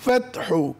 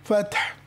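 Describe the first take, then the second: First: The word ends with a short vowel. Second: The word ends on a bare consonant. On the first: "ওয়াল ফাতহু" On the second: "সাকিন করে থামবো"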